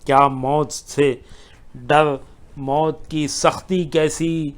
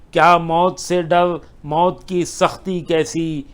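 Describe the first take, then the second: First: Said in the usual way. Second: Second take of کیا موت سے ڈر climbs in pitch; repeat raised. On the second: Acted. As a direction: push کیا موت سے ڈر up as a rising challenge. Recited couplet, repeated higher.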